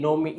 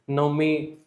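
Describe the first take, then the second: First: नवमी said as nomi, a rounded o; local form. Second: नवमी said as written, nə-mi; the correct spelling-style नवमी; wrong form. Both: Shown as a demonstration. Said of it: "नवमी नहीं".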